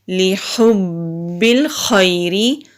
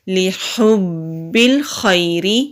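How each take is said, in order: No difference in how they are said.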